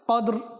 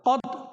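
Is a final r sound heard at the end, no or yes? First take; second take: yes; no. First: The word ends with a light r sound. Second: The word ends without any r sound. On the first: The speaker calls it right. "রকের সাথে নিয়ে আসতে হবে হালকা করে উচ্চারণের মধ্যে" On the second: The speaker calls it wrong. "কদ বলে যে রক আপনি ছেড়ে দিবেন এমন নয়"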